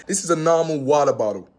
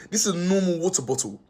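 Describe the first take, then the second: First: American accent, "water" and "bottle" with flapped t, wadder boddle. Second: Said in the usual way. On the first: Shown as a demonstration. British vlogger redoing the line for American viewers, American accent. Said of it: "let me change my accent for the Americans". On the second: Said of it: "let me change my accent".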